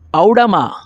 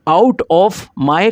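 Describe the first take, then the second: First: The words run together into one reduced word. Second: Each word is said separately and in full.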